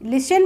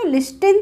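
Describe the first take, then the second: First: The t sound is not pronounced. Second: The t sound is clearly pronounced. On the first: The speaker calls it right. "लिसन बोलते हैं ना इसको" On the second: The speaker calls it wrong. "लिस्टिन तो नहीं बोलते हैं"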